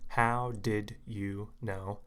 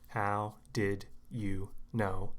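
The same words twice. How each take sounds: First: Each word is said slowly and clearly, separately. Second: The same.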